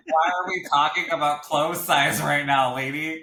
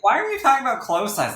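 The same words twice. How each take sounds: First: Offended. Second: Higher and louder, indignant squeal of "Why are we talking about clothes size?"; an over-the-top offended teenager, pitched way up. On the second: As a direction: replay the offence much bigger and higher. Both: Retold or imitated. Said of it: "I was so offended".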